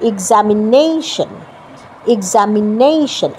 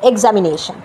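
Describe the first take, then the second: First: Slow examination with the "নেই" syllable stressed and drawn out. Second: examination said evenly, without stressing "নেই"; common mispronunciation. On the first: Teacher demonstrating the approved pronunciation, slow stress on "নেই". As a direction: lean long on "নেই" in examination. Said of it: "এই যে নেইতে আমি stress দিলাম". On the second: Teacher showing learners how we wrongly say it, unstressed mispronunciation. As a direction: say examination with no weight on the "নে" syllable. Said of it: "তা কিন্তু না". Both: Shown as a demonstration.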